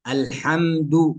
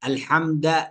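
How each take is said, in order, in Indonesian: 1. Huruf d terakhir diikuti oleh u. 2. Huruf d terakhir diikuti oleh a. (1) "الصحيح" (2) "بفتح الدال"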